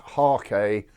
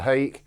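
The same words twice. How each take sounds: First: The word is said with a Japanese-style pronunciation. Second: The word is said with an English-style pronunciation. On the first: This follows the word's original language. "in that area of the world it should probably be pronounced hake" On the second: This is the familiar local way of saying it. "I have always known it as a hake"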